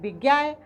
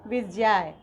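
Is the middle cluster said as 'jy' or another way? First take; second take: other; jy. First: The middle cluster is not said as 'jy'. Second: The middle cluster is said as 'jy'. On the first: The speaker calls it wrong. "ये विज्ञाय गलत है" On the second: The speaker calls it right. "ज्ञ को ज्य ज्य उच्चारित करते हैं"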